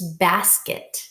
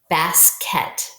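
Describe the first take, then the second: First: The second syllable has a reduced schwa vowel. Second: The second syllable has a full clear vowel. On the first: The speaker calls it right. "but we know this is basket. So this E is actually a schwa sound" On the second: The speaker calls it wrong. "this should say ket, basket, basket, but that doesn't sound exactly right"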